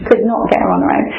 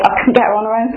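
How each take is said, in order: First: "Could not" spelled out, each word hit firmly; stress on Could not. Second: Said in the usual way. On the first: Real, not acted. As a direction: lean hard on "Could not" to show her frustration.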